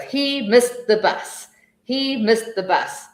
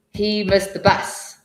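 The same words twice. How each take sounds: First: Higher, slow choral chant of the sentence; class chanting together. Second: Said in the usual way. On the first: Shown as a demonstration. Teacher showing a class repeating in chorus, slow choral chant. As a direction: chant it like a whole class in unison. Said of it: "and everyone goes". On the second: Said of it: "So if we are saying".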